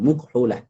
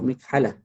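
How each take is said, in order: First: The first vowel is u. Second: The first vowel is i. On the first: It is a rare form taken from how Arabs say it. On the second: It follows the regular pattern for a tool noun. "Jadi mim tu bagi bawah"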